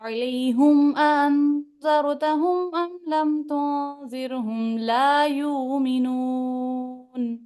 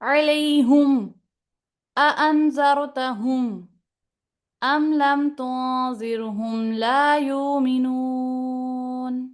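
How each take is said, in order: First: The words run on without a brief stop. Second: A brief stop comes before the glottal stop. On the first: "पहले अदम सकता" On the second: "अब सकता के साथ लाएंगे"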